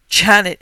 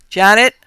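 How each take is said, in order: First: Loud cry falling in horror; horrified groan. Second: Loud call rising high. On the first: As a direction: cry her name in disbelief. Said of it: "he groaned in disbelieving horror". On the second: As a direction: call up the stairs in alarm. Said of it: "he called, his voice unnatural". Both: Acted.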